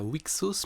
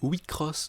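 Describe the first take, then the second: First: It is said with a plain x sound. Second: It is said with a cr sound. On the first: The speaker calls it wrong. "le jeu ne se prononce pas Wixos" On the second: The speaker calls it right. "mais Wicross"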